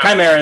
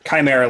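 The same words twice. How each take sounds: First: The word is said with a Greek-style pronunciation. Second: The word is said with an anglicized pronunciation. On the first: The speaker calls it right. "Chimera would be the proper Greek" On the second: The speaker calls it wrong. "I will pronounce it confidently and incorrectly"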